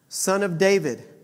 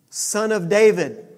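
First: It is said without shouting. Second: It is shouted loudly.

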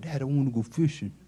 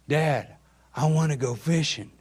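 First: It is mumbled quietly under the breath. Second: It is spoken up loudly and clearly.

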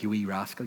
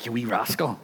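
First: It is said in a cold, harsh tone. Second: It is said in a warm, playful tone. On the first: It is a real insult. The speaker calls it wrong. "But the tone for this is not like" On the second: It is fond teasing, not a real insult. The speaker calls it right.

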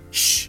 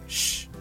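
First: A sharp, curt hush telling someone to be quiet. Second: A soft, drawn-out hush with a sensual feel. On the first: Someone is being told to be quiet. "But not shh, shut up" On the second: It sets a seductive, intimate mood. "but like shh"

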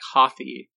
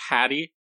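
First: The middle consonant is a th sound. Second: The middle consonant is a plain t sound. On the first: "more like Hothy with a TH kind of sound" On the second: "Like hat, like you wear on your head"

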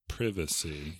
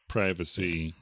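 First: It is said in an English accent. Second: It is said in an American accent.

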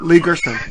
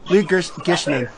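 First: The name is said quickly. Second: The name is said at a normal pace. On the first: The speaker calls it right. "I had to say it fast" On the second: The speaker calls it wrong. "You almost did it"

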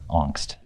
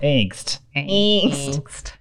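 First: The word is said with a German accent. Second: The word is said with a Midwestern American accent. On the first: "we'll go from German" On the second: "to like Midwestern"

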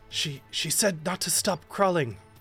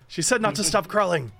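First: It is said without the character's own voice. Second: It is said in the character's own voice.

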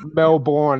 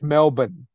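First: It is said in an American style. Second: It is said in an Australian style. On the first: The speaker calls it wrong. "It's not" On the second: The speaker calls it right.

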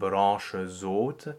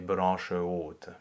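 First: A z sound links the two words. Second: No z sound links the two words. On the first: The speaker calls it wrong. "instead of saying" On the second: The speaker calls it right. "we say"

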